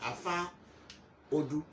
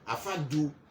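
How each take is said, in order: First: The second word is said with an opening o. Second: The second word is said without an opening o. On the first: This is the original Yoruba form. "the original is Afa Odu" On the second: This is the form used by the Ewe people. "The Ebe say Afa Du"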